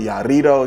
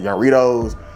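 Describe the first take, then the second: First: The R is said with a roll. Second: The R is said without a roll.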